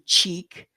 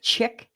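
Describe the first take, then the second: First: It begins with an 'sh' sound and long vowel. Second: It begins with a 'ch' sound and short vowel. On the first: The speaker calls it right. "chic with a C with an S H" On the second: The speaker calls it wrong. "how would I know that chick is supposed to be"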